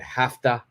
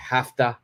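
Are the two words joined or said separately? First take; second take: joined; joined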